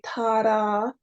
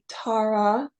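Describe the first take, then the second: First: The r is a quick tap on the palate. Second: The r is an open, untapped sound. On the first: "tapping a second time on the roof of the mouth" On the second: "it is open"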